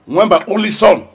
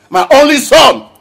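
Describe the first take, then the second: First: Said in the usual way. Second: Higher, louder repeat of my only son; anguished outburst. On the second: Acted. Father grieving his son, anguished raised voice. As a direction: cry it out in anguish.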